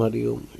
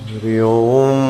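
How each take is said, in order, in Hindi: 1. इसके अक्षर छोटे और जल्दी-जल्दी बोले जाते हैं। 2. इसके अक्षर बहुत लंबे खींचकर बोले जाते हैं। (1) "फास्ट" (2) "इसको बोलते हैं प्रणव प्लुत उच्चारण"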